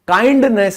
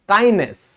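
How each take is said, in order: First: The d sound is clearly pronounced. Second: The d sound is silent. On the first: The speaker calls it wrong. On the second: The speaker calls it right.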